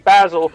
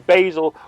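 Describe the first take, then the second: First: The word is said in a non-American accent. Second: The word is said in an American accent. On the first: "what you say" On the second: "we say"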